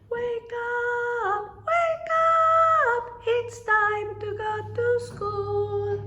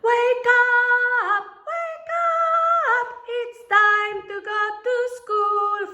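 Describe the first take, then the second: First: It is said softly. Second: It is said loudly.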